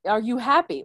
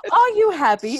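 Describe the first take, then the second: First: Said in the usual way. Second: Higher and louder second try; louder retake. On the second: Shown as a demonstration. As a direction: punch the toilet paper's line up, higher and louder. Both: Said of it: "Wow, this is so bad".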